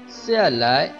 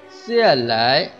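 The two takes are said the same way.

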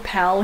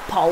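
First: The word is said in a plain, neutral accent. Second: The word is said in a local regional accent. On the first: "People call people pal here" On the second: "but it's more like pal"

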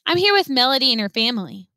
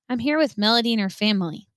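First: It is said clearly, not mumbled. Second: It is said in a quiet mumble.

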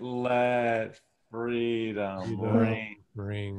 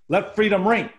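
First: The phrase is said at a slow pace. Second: The phrase is said at a fast pace. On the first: The speaker calls it wrong. "You went like this. That's slow, man" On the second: The speaker calls it right. "That's what you got to do"

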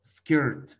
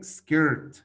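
First: The word is said with English pronunciation. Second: The same.

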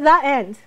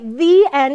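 First: The word 'the' has a weak, reduced vowel. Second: The word 'the' has a full, stressed vowel.

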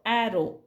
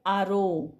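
First: The first vowel is a front 'a' as in cat. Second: The first vowel is a long open 'ah'. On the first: The speaker calls it right. "याचा उच्चार आपण करतो ॲरो" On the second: The speaker calls it wrong. "जर ह्या नियमानुसार केला असता तर आरो"

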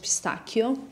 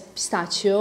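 First: It is pronounced the Italian way. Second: It is pronounced the common English way. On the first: "the correct pronunciation in Italian is pistachio" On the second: "the whole world says pistachio"

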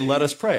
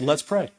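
First: Let us is said as two full words. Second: Let us is contracted to one syllable. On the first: The speaker calls it wrong. "I don't usually say" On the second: The speaker calls it right. "I say"

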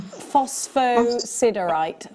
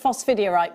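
First: The middle sounds like 'sider', with full syllables. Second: The middle sounds like 'dier', with fewer syllables. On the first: The speaker calls it right. "It's called uh, phos, phosphosiderite" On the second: The speaker calls it wrong. "I call it phosphidierite, but it's not"

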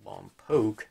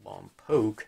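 First: The name is pronounced the way locals say it. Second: The same.

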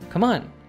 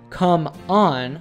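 First: The words are linked, with come stressed. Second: The words are separate, with on stressed. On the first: The speaker calls it right. "We stress come and de-stress on. Furthermore, we connect the two" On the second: The speaker calls it wrong. "instead of saying come on"

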